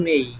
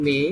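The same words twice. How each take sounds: First: মেই with a gliding "ei"; corrected pronunciation. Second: মে with a plain e vowel; familiar Bengali pronunciation. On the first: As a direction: glide from e into i on মেই. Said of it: "এটা উচ্চারণ হবে". (মেই, "এ" থেকে "ই"-তে গড়িয়ে) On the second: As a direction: say মে as "me", no glide. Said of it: "এটা আমরা উচ্চারণ করতাম". (মে সাধারণ "এ" স্বরে) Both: Shown as a demonstration.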